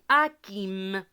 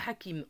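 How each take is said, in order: First: The opening H sound is silent. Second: The opening H sound is pronounced. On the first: The speaker calls it right. "le H, on ne le prononce jamais. ... on dit" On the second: The speaker calls it wrong. "On ne dit pas"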